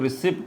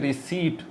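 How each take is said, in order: First: The p sound is pronounced in the word. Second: The p sound is left silent in the word. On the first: The speaker calls it wrong. "इसको रिसिप्ट बोलते हैं, तो भाई ये गलत है" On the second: The speaker calls it right. "ये पी की आवाज़ भी यहाँ नहीं निकलती"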